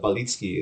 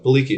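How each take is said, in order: First: The name is said with Polish pronunciation. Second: The name is said with English pronunciation. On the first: "It's pronounced uh, Balicki in Polish" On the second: "So Balicki is just fine"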